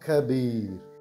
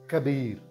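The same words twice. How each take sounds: First: It is said slowly. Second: It is said at normal speed.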